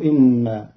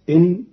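First: إن said "inna" with held n; doubled nun. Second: Said in the usual way. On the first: Shown as a demonstration. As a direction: lengthen the n of إن and add a: "inna". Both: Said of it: "بتشديد النون".

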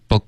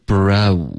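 First: "bro" dulled to "bo", no glide; blunt, weak vowel. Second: "bro" slow with a full oh glide. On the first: Teacher copying a student's mistake, blunt vowel. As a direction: drop the slide, saying a blunt "bo". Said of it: "就太钝了". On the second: Teacher modelling for a student, full glide. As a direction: draw the vowel of "bro" through its slide. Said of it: "滑动的更饱满一点". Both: Shown as a demonstration.

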